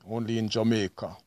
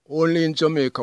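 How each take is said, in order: First: Said in the usual way. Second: Louder, higher Only in Jamaica; emphatic catchphrase. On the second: Real, not acted. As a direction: proudly punch the catchphrase.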